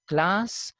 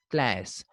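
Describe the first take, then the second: First: Second "class" said KLAHS, long ah; British pronunciation. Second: "class" said KLASS, vowel as in cat; American pronunciation. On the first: Teacher contrasting British with American, "class" with ah. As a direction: say "class" with an open ah. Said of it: "instead of class". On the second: Teacher showing how Americans say it, "class" with ae. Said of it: "The American people say class". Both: Shown as a demonstration.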